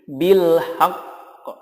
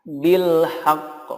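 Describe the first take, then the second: First: The phrase ends on a stressed bare q. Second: The phrase ends on a stressed bare q.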